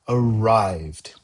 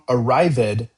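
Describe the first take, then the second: First: The ending is not said as a separate syllable. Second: The ending is said as a separate extra syllable. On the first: The speaker calls it right. "We say arrived" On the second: The speaker calls it wrong. "we do not say Tom arrived at the office"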